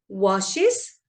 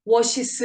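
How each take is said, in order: First: "washes" as "wa-shis", rising at the end; smooth es ending. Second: "washes" as a stiff "wo-shi-seu", bare s stuck on; s-only ending. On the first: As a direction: say "washes" with a neat -is syllable. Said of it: "부드러운 거예요". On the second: Teacher shows wash plus only s, awkward "washes". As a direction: say "washes" without a smooth es syllable. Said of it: "조금 부드럽지 않죠?". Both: Shown as a demonstration.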